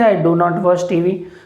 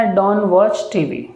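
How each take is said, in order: First: Do and not are said as two full words. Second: Do and not are merged into one word. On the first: This is the older way of saying it. "पहले बोलते थे" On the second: This is how people say it today. "अब बोलते हैं"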